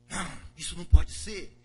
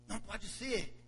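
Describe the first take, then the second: First: Loud outburst of denial; angry refusal. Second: Said in the usual way. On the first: Acted. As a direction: blurt it out, outraged. Broer weigert boos.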